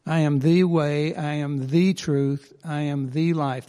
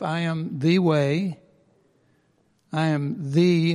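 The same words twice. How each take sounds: First: The pressed in each phrase; stress on the. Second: Slow, leaning on the; stress on the. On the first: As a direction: lean on the every time. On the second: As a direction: stretch out the before way. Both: Shown as a demonstration. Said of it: "we want to emphasize the".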